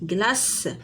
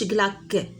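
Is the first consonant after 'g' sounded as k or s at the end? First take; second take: s; k. First: The word ends with an s sound. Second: The word ends with a k sound. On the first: The speaker calls it right. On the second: The speaker calls it wrong. "ما تقولش غلاك"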